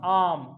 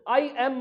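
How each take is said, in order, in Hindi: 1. दोनों शब्द मिलकर एक ही अक्षर में बोले जाते हैं। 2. दोनों शब्द अलग-अलग बोले जाते हैं। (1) "उसको क्या बोलोगे, आम" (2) "उसको अलग अलग मत बोलो, आई एम मत बोलो"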